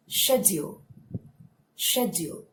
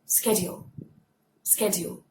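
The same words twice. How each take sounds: First: "Schedule" in a British accent, sh at the start. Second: "Schedule" in an American accent, sk at the start. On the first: Teacher trying the same word with the British accent. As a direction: put on a British accent, shed-yul. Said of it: "So British accent". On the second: Teacher trying the same word with the American accent. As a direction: put on an American accent, sked-yul. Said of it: "American accent". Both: Shown as a demonstration.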